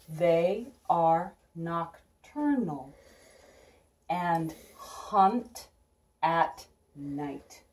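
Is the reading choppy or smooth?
choppy. The words come in separate, halting chunks.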